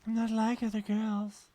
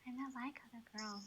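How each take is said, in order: First: Higher, slow, put-on girly voice; mock girly cliché. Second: Breathy whisper of the cliché; whispered mock. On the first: Teasing friend parodies girls, prissy and slow. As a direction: sell the cliché with a prissy lilt. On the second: Friend echoes the cliché back in a whisper. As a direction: hush the line like a secret.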